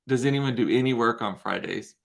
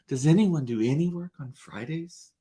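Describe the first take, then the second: First: It is said in her own plain voice. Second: It is said in a Miranda Priestly impression.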